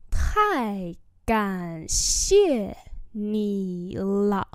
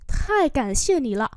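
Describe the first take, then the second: First: Each syllable drawn out slowly; slow teaching repeat. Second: Said in the usual way. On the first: Shown as a demonstration. Teacher slowly models the phrase for students, drawn out. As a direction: spell it out slowly for learners. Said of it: "slow repeat". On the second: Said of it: "normal model".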